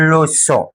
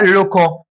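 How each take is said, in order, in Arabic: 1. الحرف في الوسط صوته s، صوت ناعم. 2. الحرف في الوسط صوته k، صوت قوي. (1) "عشان اخلي حرف السي ينطق اس" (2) "عندك كلمه ده نطقها كده لوكو"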